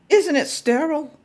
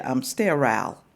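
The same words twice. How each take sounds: First: "sterile" said as stair-ul with a laugh, much higher; laughing correction of "sterile"; correct pronunciation. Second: Lightly mocking "sterile" as stair-al; mimicking his pronunciation. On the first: Shown as a demonstration. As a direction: give the right "sterile" with an amused lift. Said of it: "Is he pronouncing that right". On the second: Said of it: "but he said".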